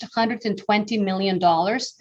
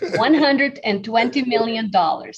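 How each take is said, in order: First: The phrase is said at a quick, normal pace. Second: The phrase is said very slowly and deliberately. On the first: "slow down" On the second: "Say that very slowly"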